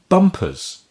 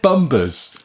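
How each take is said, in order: First: The middle consonant is a crisp P sound. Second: The middle consonant is a soft B sound. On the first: The speaker calls it right. "There's a P in it. You can hear the P" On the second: The speaker calls it wrong. "It's not said bumbers"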